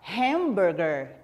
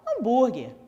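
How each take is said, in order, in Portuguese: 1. Ela é pronunciada com uma pronúncia inglesa. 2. Ela é pronunciada com uma pronúncia do português brasileiro. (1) "em inglês" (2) "aqui no Brasil a gente fala"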